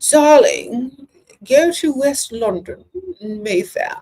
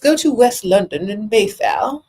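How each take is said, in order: First: It is said in a put-on British accent. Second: It is said in the speaker's normal accent.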